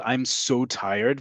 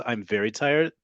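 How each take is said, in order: First: Slow, drawn-out "so" in "I'm so tired"; emotive SO. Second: Said in the usual way. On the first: Shown as a demonstration. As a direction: stretch "so" for emphasis. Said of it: "If you wanna say the equivalent".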